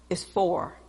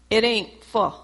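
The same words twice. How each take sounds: First: "for" with its final R sounded; corrected pronunciation. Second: "for" said as "fo'"; dropped R in "for". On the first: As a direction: softly correct to a full "for", R included. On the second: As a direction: quote "for" without its R, as a corrector. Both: Retold or imitated. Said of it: "the way they pronounce".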